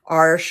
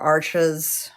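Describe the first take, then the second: First: It is one syllable ending in a sh sound. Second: It is two syllables, like the English word arches. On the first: Others have been saying it this way lately. "That's the pronunciation that I've been hearing lately" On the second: This is how the speaker has always said it. "I've always called it arches"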